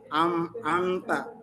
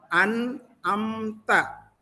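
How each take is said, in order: First: The first syllable ends with an m sound. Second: The first syllable ends with an n sound. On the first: The speaker calls it wrong. "masih banyak yang baca am amta... itu salah" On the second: The speaker calls it right. "an an yang pertama itu dibuka dulu karena nun mati"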